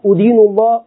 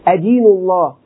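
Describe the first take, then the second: First: The verb begins with a 'u' vowel. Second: The verb begins with an 'a' vowel. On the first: I accuse God. The speaker calls it wrong. "لو ضممت وقلت أدين الله" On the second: I worship and submit to God. The speaker calls it right. "تقول دان أدين الله"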